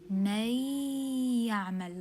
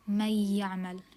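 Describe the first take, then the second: First: The merged sound is nasal and held two counts. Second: The merged sound is plain, with no nasal hold. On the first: The speaker calls it right. "you add غنة" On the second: The speaker calls it wrong. "You don't just say"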